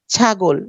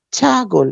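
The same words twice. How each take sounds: First: Said in the usual way. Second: ছাগল slowly in two parts, "chhaa, gol"; split into syllables. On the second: Shown as a demonstration. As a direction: draw out the first syllable of ছাগল, then break. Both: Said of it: "দুইটা অক্ষর".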